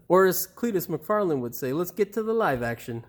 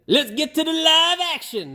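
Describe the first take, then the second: First: Said in the usual way. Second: Put-on failed Cletus accent. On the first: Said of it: "I can't do his accent". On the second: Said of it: "That's not his accent".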